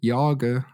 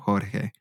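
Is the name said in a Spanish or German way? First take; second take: German; Spanish. First: The name is said the German way. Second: The J is said like an H, Spanish-style.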